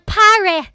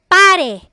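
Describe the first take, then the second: First: The p is said with a puff of air. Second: The p is said without a puff of air. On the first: The speaker calls it wrong. "Hindi tayo nagsasabi ng pare, ... Hindi tayo nag-aspirate. Hindi siya breathy" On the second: The speaker calls it right. "P as in pare"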